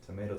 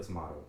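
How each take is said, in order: First: "Tomato" said as tuh-MAY-toh. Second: "tomato" said as tuh-MAH-toh. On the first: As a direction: give "Tomato" a long ay in the middle. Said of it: "you say tomato". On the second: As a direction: give "tomato" a broad ah in the middle. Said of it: "I say tomato". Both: Shown as a demonstration.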